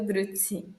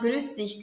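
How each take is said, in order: First: The words blend together, ending in 'tsee'. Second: Both words are said fully, ending in 'dich'. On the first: "vai virando Grüezi" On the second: "Se você falar Grüß dich"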